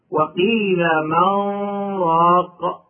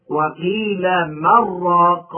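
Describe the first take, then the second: First: من راق with the نون held as a nasal hum into the راء; with nasal ghunna. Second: وقيل من راق slow, the نون fully merged into a doubled راء with no nasal hum; without ghunna. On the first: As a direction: let من hum through the nose before راق. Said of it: "بالغنة هكذا". (وقيل من راق مع الغنة) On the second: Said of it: "وبدونها هكذا". (وقيل من راق بلا غنة) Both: Shown as a demonstration.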